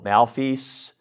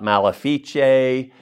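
First: The word is said in a plain English way. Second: The word is said in a Latin-style way. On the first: "I pronounce this like six different ways" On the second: "Then I look at my Latin comes out"

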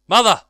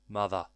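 First: The word is said loudly, as an exclamation. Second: The word is said flatly, without emphasis. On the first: The speaker calls it right. "There is a very prominent exclamation mark there" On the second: The speaker calls it wrong. "I didn't say it right"

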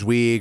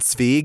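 First: The name is said with an English pronunciation. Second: The name is said with a German pronunciation. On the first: "sometimes it's just Zweig or whatever" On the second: "getting the little German Zweig in there"

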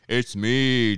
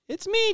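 First: It is said in a deep voice. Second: It is said in a normal voice.

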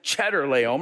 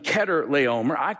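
First: The name begins with a 'ch' like 'cheese'. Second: The name does not begin like 'cheese'. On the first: "He's the big cheese, so I call him Chedorlaomer" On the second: "some pronounce him Chedorlaomer"

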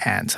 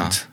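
First: It is said with an American accent, like 'ant'. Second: It is said with a British accent, 'ahnt'.

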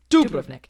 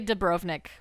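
First: The stress is on the first syllable. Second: The stress is on the second syllable. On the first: The speaker calls it right. "the accent is on the first syllable" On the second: The speaker calls it wrong. "People say Dubrovnik"

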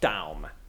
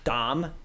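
First: The vowel is like the vowel of 'down'. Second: The vowel is not the vowel of 'down'. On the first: The speaker calls it right. "It's like down, but with an M" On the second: The speaker calls it wrong. "Not Daum"

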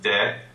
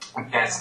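First: The final S is silent. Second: A z sound is heard at the end. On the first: "in its normal form, you don't sound the S at the end of it" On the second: "the liaison on it"

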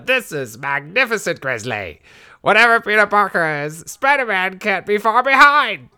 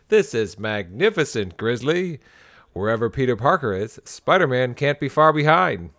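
First: It is said in a put-on jackal voice. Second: It is said in a plain, ordinary voice.

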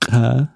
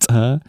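First: The first consonant has no puff of air. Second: The first consonant has a puff of air. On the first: The speaker calls it right. "som är oaspirerat" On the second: The speaker calls it wrong. "inte trä"

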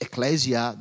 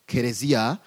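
First: It is pronounced the English way, ecclesia. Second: It is pronounced the local way, keresia. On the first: "They don't say it like in English" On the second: "They speak it locally"

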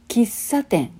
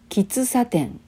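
The two takes are said the same way.

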